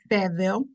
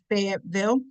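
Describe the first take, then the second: First: The name is pronounced the way locals say it. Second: The name is pronounced the ordinary outsider way.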